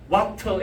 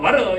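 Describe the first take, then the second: First: The middle sound is a full, clear t. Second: The middle sound is a soft r-like flap. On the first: This is how a beginner says it. "더블유 에이 티 알 와터 이라는데" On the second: This is how a practiced speaker says it. "나중에 세련되면 와르"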